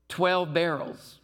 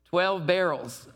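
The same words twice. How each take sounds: The two takes are said the same way.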